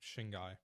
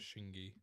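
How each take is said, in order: First: The word ends with an 'eye' sound. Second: The word ends with an 'ee' sound. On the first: The speaker calls it right. "supposed to be pronounced like Shingai" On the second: The speaker calls it wrong. "instead of Shingi"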